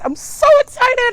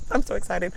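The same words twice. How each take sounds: First: Much higher and louder excited squeal; thrilled squeal. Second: Said in the usual way. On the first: Real, not acted. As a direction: burst out with real delight.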